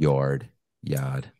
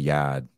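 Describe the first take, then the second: First: The r sound is clearly pronounced. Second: The r sound is dropped, New England style.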